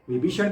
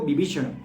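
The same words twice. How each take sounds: First: The word begins with a v sound. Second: The word begins with a b sound. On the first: "व को" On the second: "व को ब के उच्चारण से किया गया है"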